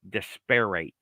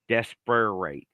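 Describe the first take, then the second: First: Every letter is pronounced just as it is written. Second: The same.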